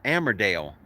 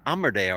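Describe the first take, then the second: First: Armidale said AM-er-dale; flat "a" as in "am" starting Armidale; second pronunciation. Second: Armidale said AH-mer-dale; alternative pronunciation. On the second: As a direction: open "ah" at the start of Armidale. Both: Shown as a demonstration. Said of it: "Armidale or Amer-, Armidale".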